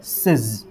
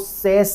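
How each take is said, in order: First: The ending is said with a short i and z. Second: The ending is said with an open e and s. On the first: The speaker calls it right. "ये इसका सही pronunciation है" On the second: The speaker calls it wrong. "बहुत सारे बच्चे क्या करते हैं यहां पे जाकर के मिस्टेक कर देते हैं"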